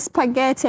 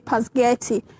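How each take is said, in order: First: The word begins with an 'spa' sound. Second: The word begins with a 'pas' sound.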